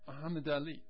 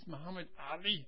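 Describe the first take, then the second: First: Ali starts with a plain vowel sound. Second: Ali starts with a tight, voiced throat sound. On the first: The speaker calls it wrong. "not Muhammad Ali" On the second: The speaker calls it right. "It is Muhammad Ali"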